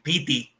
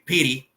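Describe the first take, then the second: First: It is pronounced with Spanish sounds, piti. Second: It is pronounced like the English word pity. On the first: The speaker calls it wrong. "las cosas las pronuncian mal ... dicen piti" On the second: The speaker calls it right. "En vez de decir, decir pity"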